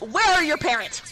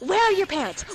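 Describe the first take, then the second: First: It is said in the speaker's ordinary voice. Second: It is said in an imitated character voice.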